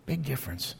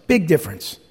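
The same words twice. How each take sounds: First: Much softer echo, almost under the breath; soft repeat. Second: Said in the usual way. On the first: Shown as a demonstration. Preacher letting his point settle on the congregation, hushed. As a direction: let the repeat sink in quietly.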